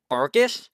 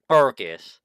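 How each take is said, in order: First: Fergus? with a rising questioning tune; trying out the name Fergus? with a lift at the end; puzzled question. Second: Fergus. with a falling, settled tune; confirming the name Fergus. with a falling close; settling statement. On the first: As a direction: ask the name Fergus? as if unsure. Reads unfamiliar name questioningly. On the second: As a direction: say Fergus. as if it's decided. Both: Real, not acted.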